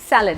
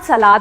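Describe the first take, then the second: First: It is said with a short second vowel, 'sal-ud'. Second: It is said with a long second vowel, 'sa-laad'. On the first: The speaker calls it right. "It is सैलड" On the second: The speaker calls it wrong. "It is not सलाद in English"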